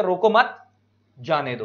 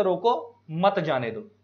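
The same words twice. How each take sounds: First: "रोको मत" rising, pause, then lower "जाने दो"; pause after मत. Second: "रोको" left hanging, pause, then "मत जाने दो"; pause after रोको. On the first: Teacher recapping the second comma case, pausing after मत. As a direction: join मत to रोको, break, drop on जाने दो. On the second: Teacher recapping the first comma case, pausing after रोको. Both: Shown as a demonstration. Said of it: "के बाद comma लगाया तो".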